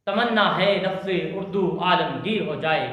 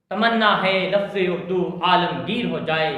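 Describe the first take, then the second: No difference in how they are said.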